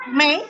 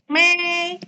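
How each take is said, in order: First: "Mei" short and rising; second tone. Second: "Mei" high, long and level; first tone. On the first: Teacher giving Dina the next word, rising "Mei". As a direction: lift "Mei" like a question. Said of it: "nada naik ke atas". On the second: Teacher drilling Dina on tone one, high level "Mei". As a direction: sustain "Mei" on one raised, unmoving pitch. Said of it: "nada satu ya". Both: Shown as a demonstration.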